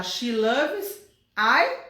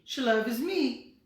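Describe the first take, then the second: First: Slow questioning She loves I with I rising; wrong form, drawn out. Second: Said in the usual way. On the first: Shown as a demonstration. Teacher offering the wrong option slowly to her students. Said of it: "eu tenho que falar".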